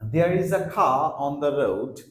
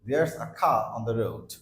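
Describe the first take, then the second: First: Both words are said in full, separately. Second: The words are squeezed into one contracted word.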